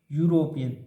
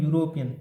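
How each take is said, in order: First: यूरोपियन said as "yoo-ro-pee-an", the wrong way; wrong pronunciation. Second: यूरोपियन said with a "yu" glide at the start, falling at the end; correct pronunciation. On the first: Teacher showing how यूरोपियन should not be said. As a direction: say यूरोपियन the way not to, with a plain "u" sound. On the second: Teacher modelling the right way to say यूरोपियन. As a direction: give यूरोपियन its "yu" sound, like "yoo-ro-pee-an". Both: Shown as a demonstration. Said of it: "यूरोपियन नहीं बोलना है".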